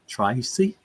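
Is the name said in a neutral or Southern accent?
neutral. The name is said in a neutral accent.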